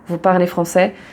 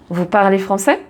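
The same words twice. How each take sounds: First: The voice falls at the end. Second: The voice rises at the end. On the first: It is a plain statement. "la phrase simple, affirmative" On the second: It is a question. "la question"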